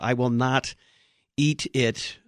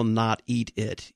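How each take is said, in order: First: Said in the usual way. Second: Slow, stressed "not eat it" with weight on "not"; emphatic not. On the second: Shown as a demonstration. Host shows the guest the emphatic Greek negative, slow stress on "not". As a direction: lean hard and slowly on "not" in "not eat it". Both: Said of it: "the Greek there is pretty emphatic".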